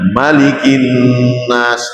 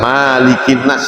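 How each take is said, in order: First: The first vowel is kept short. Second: The first vowel is held long. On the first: The speaker calls it right. "jadi satu bacaan saja" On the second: The speaker calls it wrong. "Boten angsal ... tidak boleh"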